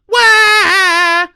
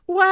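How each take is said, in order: First: It is a pushed sound with more effort. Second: It is a light, whiny sound without pushing.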